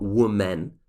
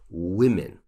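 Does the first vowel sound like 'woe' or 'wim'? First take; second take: woe; wim. First: The first syllable sounds like 'woe'. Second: The first syllable sounds like 'wim'. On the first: The speaker calls it wrong. "it's not women" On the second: The speaker calls it right. "it's women. It's a very strange pronunciation"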